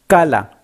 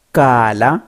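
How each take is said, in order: First: Kala said short and clipped quick; short vowel. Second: Kala with its vowel drawn out; long vowel. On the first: Teacher giving the short-vowel kala for criquet. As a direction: keep the vowels in kala brief. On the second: Teacher giving the long-vowel Kala for sauterelle. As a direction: hold the vowel in Kala longer. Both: Shown as a demonstration. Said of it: "Voyelle longue".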